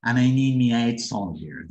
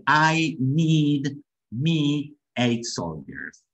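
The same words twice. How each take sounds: First: "And I need me eight soldiers" run together as connected speech; imitated film line. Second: "I need me eight soldiers" very slow, each word separated. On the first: Teacher repeating the lieutenant's line for learners, imitated connected delivery of "And I need me eight soldiers". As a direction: echo the film's "And I need me eight soldiers" in one joined-up run. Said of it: "fíjense cómo dice".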